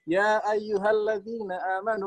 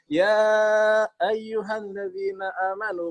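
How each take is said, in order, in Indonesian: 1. Vokal pada 'ya' dibaca pendek, lebih cepat. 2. Vokal pada 'ya' dibaca panjang. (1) "kan lebih cepat"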